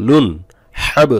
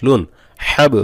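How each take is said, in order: No difference in how they are said.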